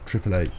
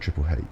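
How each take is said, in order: First: The letter H begins with a vowel sound. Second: The letter H begins with an H sound. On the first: The speaker calls it right. "the letter's pronounced H with an A" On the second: The speaker calls it wrong. "They don't say Triple H"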